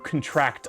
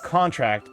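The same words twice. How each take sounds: First: The stress is on the second syllable. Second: The stress is on the first syllable. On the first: It is a verb, to catch. "second syllable, verb" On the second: It is a noun, an agreement. "first first uh, syllable, noun"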